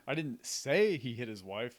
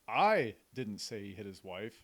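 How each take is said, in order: First: The word "say" carries the main stress. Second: The word "I" carries the main stress. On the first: It was implied but not spoken. "I didn't actually verbalize it" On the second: Someone else might have said it. "So you're implying that it wasn't me"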